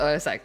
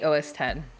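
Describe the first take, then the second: First: The last part is said as the letter X. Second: The last part is said as the number ten. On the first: "You spell it O S X" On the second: "You say O S ten"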